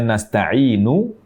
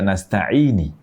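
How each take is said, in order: First: The word ends with a short u vowel. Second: The word ends with a short i vowel. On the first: The speaker calls it right. "Harusnya nasta'inu" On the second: The speaker calls it wrong. "namun dibaca nasta'ini"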